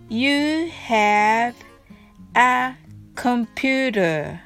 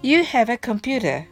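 First: The phrase is said slowly, word by word. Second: The phrase is said smoothly, words linked together. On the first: "はじめはゆっくりです。" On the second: "次は滑らかに言ってみましょう。"

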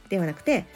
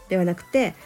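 No difference in how they are said.

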